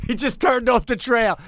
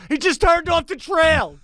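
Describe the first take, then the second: First: Mock alarm. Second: Very high-pitched, exasperated report; escalating mock panic. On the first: Operator reports Biden straying, first take. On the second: Scroll operator reporting Biden off script, escalating mock panic. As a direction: raise the alarm in a comically high voice.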